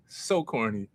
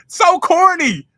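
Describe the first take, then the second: First: Said in the usual way. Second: High, loud, slow laughing "So corny"; laughing exclaim. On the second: Real, not acted. Mocking his own pickup line, loud high laughing. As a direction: crack up at your own cheesy line.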